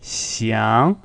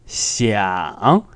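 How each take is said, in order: First: "xiang" rising smoothly, no croak; smooth second tone. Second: "xiang" dipping roughly, then rising; rough fall-then-rise on "xiang"; croaky third tone. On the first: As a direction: glide "xiang" straight up. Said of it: "One is smooth". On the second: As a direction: drag "xiang" down through a croak and up. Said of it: "more croaky or rough". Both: Shown as a demonstration.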